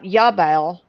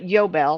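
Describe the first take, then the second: First: The first vowel is an A sound. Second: The first vowel is an O sound. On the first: The speaker calls it wrong. "not Yabel" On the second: The speaker calls it right. "but Yobel, like Yobel. Yobel is ringing with an O"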